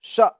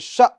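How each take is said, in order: First: The vowel is cut off with a sharp catch. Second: The same.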